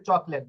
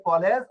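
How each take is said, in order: First: চকলেট opening on a ch; CH sound. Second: কলেজ opening on a hard k; K sound. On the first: Teacher gives contrasting example of C, ch in চকলেট. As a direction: say চকলেট with a clear ch at the start. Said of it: "এখানে চ". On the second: Teacher gives example of C, hard k in কলেজ. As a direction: say কলেজ with a clear k at the start. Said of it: "ক এর উচ্চারণ আসছে". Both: Shown as a demonstration.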